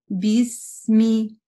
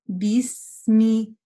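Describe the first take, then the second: No difference in how they are said.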